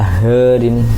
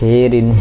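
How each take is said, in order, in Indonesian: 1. Vokal pertama condong lebih ke a. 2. Vokal pertama condong kuat ke i. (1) "agak mendekat ke fathah" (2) "lebih dekat ke kasroh"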